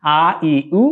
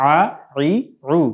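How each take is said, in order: First: "আ, ই, উ" as ordinary vowels with hamza onset; simple "আ, ই, উ", no squeeze in the throat; plain hamza vowels. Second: "আ, ই, উ" from mid-throat, as Arabic ayn; throaty ayn vowels. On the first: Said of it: "হামজা হিসেবে উচ্চারিত হয়". (হামজা হিসেবে সাধারণ "আ, ই, উ") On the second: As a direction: squeeze each of "আ, ই, উ" in the middle of the throat. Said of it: "একটু কণ্ঠনালীর মধ্যখান থেকে". (কণ্ঠনালীর মধ্যখান থেকে "আ, ই, উ") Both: Shown as a demonstration.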